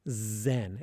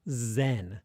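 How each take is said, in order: The two takes are said the same way.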